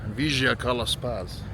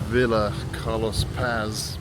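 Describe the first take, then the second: First: It is said with a Cordoban Spanish accent. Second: It is said with an English accent. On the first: "because we're in the Cordoba region ... it's something more like" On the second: "Its name is Villa Carlos Paz in English"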